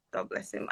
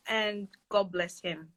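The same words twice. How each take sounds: First: Breathy whisper, softer than before; whispered blessing. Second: Said in the usual way. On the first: Real, not acted. Blessing her collaborator, whispering it quietly to herself. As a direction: whisper it like a private prayer.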